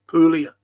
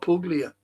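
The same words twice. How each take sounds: First: No hard g sound is heard in the middle. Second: A hard g sound is heard in the middle. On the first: The speaker calls it right. "P U L I A" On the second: The speaker calls it wrong. "not Puglia"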